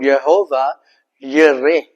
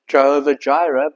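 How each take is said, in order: First: The second word begins with a Y sound. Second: The second word begins with a J sound. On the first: This is the original Hebrew form. "in actual Hebrew, it's called Jehovah Yireh" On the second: This is the common anglicized form. "we pronounce it as Jehovah Jireh"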